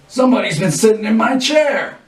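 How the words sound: It is said in a deep growling voice.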